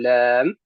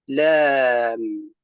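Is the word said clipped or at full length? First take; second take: clipped; full length. First: The word is clipped short. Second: The word is said at full length. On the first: The speaker calls it wrong. "كأننا اختلسنا حرف اللام" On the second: The speaker calls it right. "فنقول لام"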